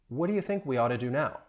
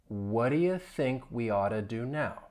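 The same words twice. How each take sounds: First: The sentence is spoken at a normal, faster pace. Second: The sentence is spoken at a slow pace. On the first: "more at a normal speed" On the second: "I'll say it slowly"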